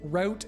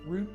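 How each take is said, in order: First: The word is said the American way. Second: The word is said the Canadian way. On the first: "is the American" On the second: "is the Canadian"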